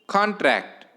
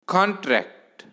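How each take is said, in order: Both takes have the same delivery.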